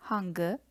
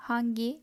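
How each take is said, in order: First: Hangi with a dull back final vowel, hahn-guh; older back-vowel form. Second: Hangi with a clear final i, hahn-gee; modern Turkish form. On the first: Teacher contrasting the old form hangi, said hangı. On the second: Teacher giving the standard Turkish form hangi. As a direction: hangi ending crisply on a front i. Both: Shown as a demonstration. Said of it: "all Turkish sayings into parentheses".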